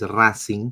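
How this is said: It is pronounced the Spanish way. "but it's Racing in Spanish"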